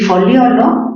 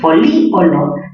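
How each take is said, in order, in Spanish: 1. El acento cae en la sílaba del diptongo: fo-lio-lo. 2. La i tónica es una sílaba aparte: fo-lí-o-lo. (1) "mayor fuerza en lío, forma un diptongo" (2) "la I es una cerrada que está en contacto con una abierta, tildación disolvente"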